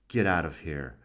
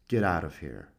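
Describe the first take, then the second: Both takes have the same delivery.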